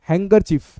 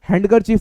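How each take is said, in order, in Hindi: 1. पहला अक्षर 'hang' जैसा सुनाई देता है। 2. पहला अक्षर 'hand' जैसा सुनाई देता है। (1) "इट्स हैंगरचीफ" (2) "इसको प्लीज हैंडकरचीफ मत बोलिएगा"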